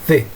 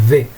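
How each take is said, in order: First: It starts with the tongue between the teeth. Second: It starts with the tongue between the teeth.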